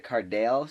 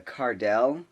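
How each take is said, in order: First: "Cardale" with long a in second syllable; mispronounced name. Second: "Cardell" with short e in stressed second syllable; correct name pronunciation. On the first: Substitute misreading student's name, "Cardale" with long a. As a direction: say "Cardale" ending like "dale". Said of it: "she pronounced it Cardale". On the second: Student's name as it was, "Cardell" with short e. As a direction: say "Cardell" ending like "dell". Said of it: "that was his name". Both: Shown as a demonstration.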